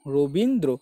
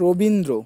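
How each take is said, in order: First: রবীন্দ্র slowly, in separated syllables; careful syllables. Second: Said in the usual way. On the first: Shown as a demonstration. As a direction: sound out রবীন, then দ্র. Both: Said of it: "অন্য কোনো কিছু উচ্চারণ আসছে?".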